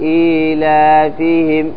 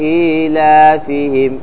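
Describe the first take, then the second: The two takes are said the same way.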